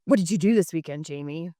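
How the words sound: It sounds accusing, like questioning a criminal.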